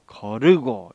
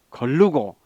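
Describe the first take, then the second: First: No extra l sound precedes the second syllable. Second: An extra l sound precedes the second syllable. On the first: The speaker calls it right. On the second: The speaker calls it wrong.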